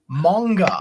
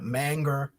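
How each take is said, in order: First: The word is said with an 'o' vowel sound. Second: The word is said without an 'o' vowel sound. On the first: This is how it was said in the past, including in news reports. The speaker calls it wrong. "I don't know how they got an O in there" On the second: This is the usual pronunciation. The speaker calls it right. "They weren't calling it manga"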